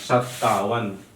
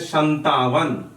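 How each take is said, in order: First: A doubled t sound with no n. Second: An n sound comes before a single t. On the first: The speaker calls it right. "आधाता पूराता वन" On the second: The speaker calls it wrong. "इसको कह देते हैं संतावन"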